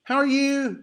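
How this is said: It is said in an American accent. "o How Are You do americano é mais assim"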